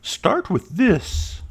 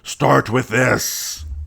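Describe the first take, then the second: First: The voice sounds mild and not commanding. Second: The voice sounds firm and commanding. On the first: "That doesn't sound very commanding either" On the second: "She doesn't sound like that"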